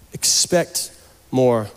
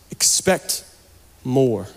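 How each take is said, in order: Both takes have the same delivery.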